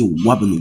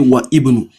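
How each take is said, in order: First: The i is skipped, linking wa straight to bnu. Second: The i of ibnu is said as a separate syllable. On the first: The speaker calls it right. "you jump it" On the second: The speaker calls it wrong. "If you pronounce it that way, that is not correct"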